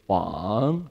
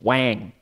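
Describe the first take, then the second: First: The vowel is soft and gentle, without nasal twang. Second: The vowel is a hard, nasal English A. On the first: It means king. The speaker calls it right. "very soft, very gentle" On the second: It is the name of a word processor. The speaker calls it wrong. "no hard nasal A"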